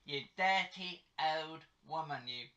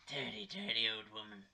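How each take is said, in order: First: Put-on London accent. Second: Lower-pitched put-on London accent. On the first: Teasing mum for breaking wind, London accent. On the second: Teasing mum about the noise, London accent. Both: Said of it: "doing in a London accent".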